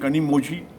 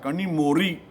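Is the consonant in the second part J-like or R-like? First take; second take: J-like; R-like. First: The middle consonant of 'mozhi' sounds like J. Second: The middle consonant of 'mozhi' sounds like R. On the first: The speaker calls it wrong. "और आप बोलते हैं कनी मोजी" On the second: The speaker calls it right. "वहाँ Z H का मतलब रॉ होता है"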